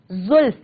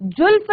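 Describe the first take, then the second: First: जुल्फ opening on a buzzing z; nukta z sound. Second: जुल्फ opening on a hard j; wrong j sound. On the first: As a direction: say जुल्फ as "zulf". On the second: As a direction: say जुल्फ as "julf". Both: Shown as a demonstration. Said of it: "जुल्फ नहीं कहेंगे".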